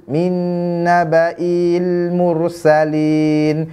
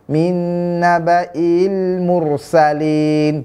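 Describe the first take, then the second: No difference in how they are said.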